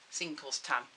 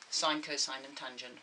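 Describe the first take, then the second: First: Said as "Sin, cos, tan" in short clipped syllables; abbreviated names. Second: Said in full as "sine, cosine, and tangent"; full names. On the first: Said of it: "we usually abbreviate them to". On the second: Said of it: "The actual terms are". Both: Shown as a demonstration.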